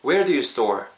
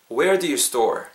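The two takes are said the same way.

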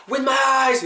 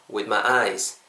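First: "With my eyes" all equally high and punched; stress on every word. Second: "eyes" carries the weight, "With my" light and low; lower-pitched phrase leaning on a long "eyes"; stress on EYES. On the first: Teacher mocking the wrong way, exaggerated high "With my eyes" all stressed. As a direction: hit "With", "my" and "eyes" hard on one very high pitch. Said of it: "이렇게 될 텐데요". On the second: Teacher showing the right way, "With my eyes" stressed on eyes. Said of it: "여기 강세 넣어주시면". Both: Shown as a demonstration.

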